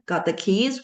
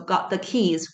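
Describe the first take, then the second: First: The pitch rises at the end. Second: The pitch falls at the end. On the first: It asks a question. "would be a question" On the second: It states a fact. "would be a statement"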